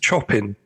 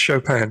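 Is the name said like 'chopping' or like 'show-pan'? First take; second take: chopping; show-pan. First: It sounds like the English word chopping. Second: It sounds like show-pan, with a nasal ending. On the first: The speaker calls it wrong. "it's spelt chopping" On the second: The speaker calls it right. "it's actually pronounced Chopin"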